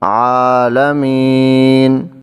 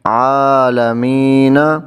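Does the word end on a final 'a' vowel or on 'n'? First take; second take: n; a vowel. First: The word ends abruptly on the 'n' sound. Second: The word ends with a final 'a' vowel. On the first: "नून को हम साकिन करेंगे, वक़फ़ करेंगे" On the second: "नून ज़बर ना, तो ये बन जाएगा आलमीना"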